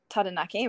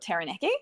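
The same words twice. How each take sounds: First: The name is said with Maori pronunciation. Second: The name is said with anglicized English pronunciation. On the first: "the Maori way of saying it is Taranaki" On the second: "as some people will sound it out"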